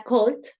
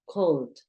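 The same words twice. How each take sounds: First: "cold" ending in a hard, crisp T, "colt"; too-hard final T. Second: "Cold" ending in a light, soft D; softer final D. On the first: Teacher shows how it does not sound, hard final T. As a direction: overdo the last sound of "cold" as a T. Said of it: "no es tan fuerte". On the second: Teacher models a slightly softer sound, soft final D. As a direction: ease off the last sound of "Cold". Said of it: "es un poquito más suave". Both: Shown as a demonstration.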